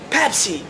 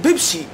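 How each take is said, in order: First: The word begins with a p sound. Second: The word begins with a b sound. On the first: The speaker calls it right. "بالبي بي" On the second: The speaker calls it wrong. "مو بالبي"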